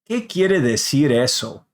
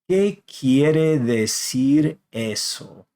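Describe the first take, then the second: First: It is said at normal speed. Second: It is said slowly.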